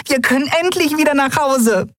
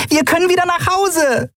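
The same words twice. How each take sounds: First: High, joyful cheer, leaning on endlich; overjoyed that they can finally go home; jubilant. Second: High, joyful cheer; rejoicing at going home at last; jubilant. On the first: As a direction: cheer it again with pure joy. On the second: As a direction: cheer it out with pure joy. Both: Acted. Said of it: "jubelte sie".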